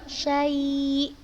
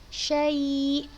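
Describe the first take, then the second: No difference in how they are said.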